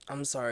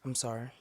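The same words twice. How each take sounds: First: It is said forcefully, from the chest. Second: It is said plainly, without force.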